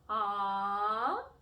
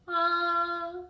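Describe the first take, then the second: First: The pitch rises from lower to higher. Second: The pitch stays level and steady. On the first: "the second tone is what we call a rising tone" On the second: "The first tone in Mandarin is a flat tone"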